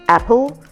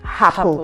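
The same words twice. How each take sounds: First: The word starts directly with the vowel. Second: The word starts with an h sound. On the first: The speaker calls it right. "Words like apple" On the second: The speaker calls it wrong. "they would rather say apple"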